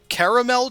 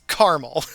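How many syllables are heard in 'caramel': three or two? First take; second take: three; two. First: The word is said with three syllables. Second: The word is said with two syllables. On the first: The speaker calls it wrong. "just feels wrong in my face hole" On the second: The speaker calls it right. "It is two syllables"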